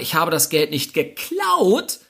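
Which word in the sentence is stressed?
geklaut. The word "geklaut" is stressed. The money was obtained some other way, like borrowing. "ich habe es mir geliehen oder organisiert"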